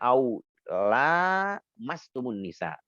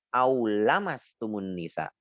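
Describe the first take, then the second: First: The vowel after the 'l' is long. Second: The vowel after the 'l' is short. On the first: This is how another regional school recites it. "mereka membacanya dengan panjang" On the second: This is how one regional school recites it. "membacanya dengan pendek"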